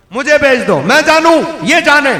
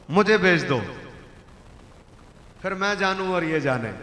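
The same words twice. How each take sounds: First: Louder and higher, punch it; loud repeat. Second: Said in the usual way. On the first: Acted. Preacher repeats the camel's offer to the crowd, loud. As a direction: hammer the words home.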